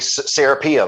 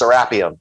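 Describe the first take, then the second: First: The name is said the American way. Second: The name is said the Egyptian way. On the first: "Americans say Serapeum" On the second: "when they say it over in Egypt, it's Serapeum"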